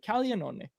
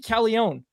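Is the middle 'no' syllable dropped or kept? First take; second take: kept; dropped. First: Every syllable of the name is said. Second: One middle syllable is dropped from the name. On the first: The speaker calls it right. "That's all you gotta say" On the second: The speaker calls it wrong. "They just they just skip one of the N's"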